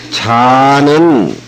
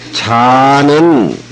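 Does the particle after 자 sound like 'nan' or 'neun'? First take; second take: neun; neun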